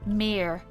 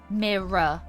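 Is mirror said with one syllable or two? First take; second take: one; two. First: The word is said with one syllable. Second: The word is said with two syllables. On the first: "But I hear a lot of Americans say mirror" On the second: "So I say mirror, right? Mirror. Like, it's two, syr- two syllables"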